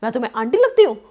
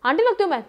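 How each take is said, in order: First: Louder, indignant demand, imitating the offended woman; retold angry outburst. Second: Higher and louder, an outraged repeat of the question; retold angry outburst. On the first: Shopkeeper woman scolding husband for calling her aunty, loud indignant imitation. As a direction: throw the question back at him, offended. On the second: Offended shopkeeper repeating her question to husband, higher, louder mock outrage. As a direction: push the insult back harder, mimicking her outrage. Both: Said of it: "उस पे ना वो गुस्सा हो गई बहुत और बोलती है".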